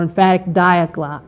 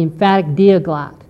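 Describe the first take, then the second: First: "diaglot" starting with a long i sound, like "die"; DIE-a-glot pronunciation. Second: "diaglot" starting with a long ee sound, like "dee"; DEE-a-glot pronunciation. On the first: Lecturer offering another reading of the translation's name, "diaglot" said DIE-uh-glot. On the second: Lecturer naming a Bible translation, "diaglot" said DEE-uh-glot. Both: Shown as a demonstration. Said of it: "or emphatic diaglot".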